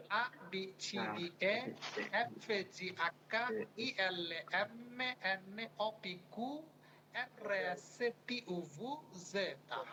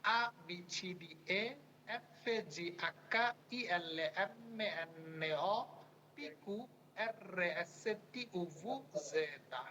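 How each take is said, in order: First: Put-on reciting the Italian alphabet letter by letter like a child; alphabet recitation. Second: Reciting the Italian alphabet again, letter by letter; alphabet recitation. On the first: Teacher recites the alphabet aloud for students to copy. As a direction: chant each letter in turn, a short pause after each. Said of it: "Italian বাচ্চারা কিভাবে পড়ে". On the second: Teacher repeats the alphabet for students to memorize. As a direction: chant each letter in turn for the class to follow. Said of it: "আরেকবার শুনে দিচ্ছি". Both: Shown as a demonstration.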